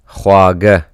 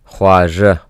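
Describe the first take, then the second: First: The middle consonant sounds like a g. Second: The middle consonant sounds like a j. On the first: "You can also say it khwaga" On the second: "Khwaja meaning sweet"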